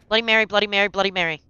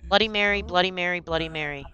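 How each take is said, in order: First: It is said fast. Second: It is said slowly.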